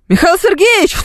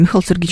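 First: The name is said loudly and projected. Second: The name is said quietly and softly. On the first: The caller wants everyone around to hear. The speaker calls it wrong. "И все это так громко и так хорошо поставлено" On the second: The caller avoids disturbing people nearby. The speaker calls it right. "Нет бы тихонечко"

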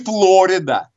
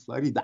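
First: The name is said in the American manner. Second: The name is said in the Spanish manner. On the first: The speaker calls it wrong. "а не Флорида, как говорят американцы" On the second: The speaker calls it right. "по-испански Флорида"

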